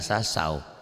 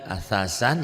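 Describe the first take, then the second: First: The final n merges into a w sound. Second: The word ends with a clear n sound. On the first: "jadi asasau" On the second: "Patatain ketemu waw idgham bigunah ya"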